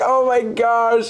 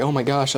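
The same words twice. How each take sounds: First: High, drawn-out imitation wail; exaggerated tearful outpouring, retold; mock bawling. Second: Said in the usual way. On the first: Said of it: "like, bawling". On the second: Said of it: "I don't know what to say".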